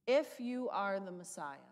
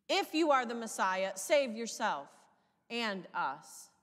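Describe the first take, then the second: First: Said in the usual way. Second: Mocking. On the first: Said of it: "This questioning, this challenge". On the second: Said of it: "we hear the mocking".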